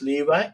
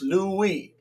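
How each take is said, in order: First: The middle consonant is a v sound. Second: The middle consonant is a w sound. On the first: "If you pronounce it va" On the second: "If you pronounce it wa"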